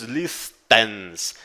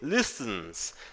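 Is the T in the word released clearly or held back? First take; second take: clear; held back. First: The T sound is released clearly. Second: The T sound is held back, not released. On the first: The speaker calls it wrong. "a letra T você não diz listens" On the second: The speaker calls it right. "e sim listens. Ele é um T é, para dentro"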